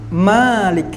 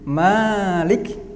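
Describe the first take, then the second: First: The first vowel is short. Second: The first vowel is long. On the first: "Ada bacaan Malik" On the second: "Yang dibaca panjang yang kita baca sehari-hari"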